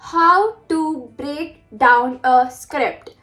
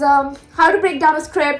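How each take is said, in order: First: The phrase is spoken very slowly. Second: The phrase is spoken very fast. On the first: The reader gets every word clear. "super slow" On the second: The reader grasps the overall gist. "Like बहुत तेज तेज"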